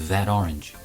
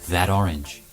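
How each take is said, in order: The two takes are said the same way.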